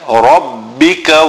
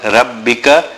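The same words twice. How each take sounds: First: The r sound is heavy and full. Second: The r sound is light and thin. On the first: The speaker calls it right. "The ra again full mouth" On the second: The speaker calls it wrong. "Not rabbika"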